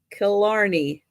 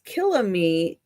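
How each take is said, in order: First: Killarney, said as kuh-LAR-nee; Killarney, stress on LAR with a falling end; careful fixed Killarney; corrected name. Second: Killamee, said with a stray m in place of the r; Killamee, the name garbled as Kil-la-mee; first stumbling try at Killamee; mispronounced. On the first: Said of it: "I probably still didn't say it right". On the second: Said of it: "[name] is mispronouncing things". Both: Real, not acted.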